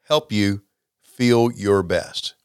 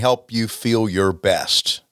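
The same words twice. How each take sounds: First: It is said slowly. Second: It is said at normal speed.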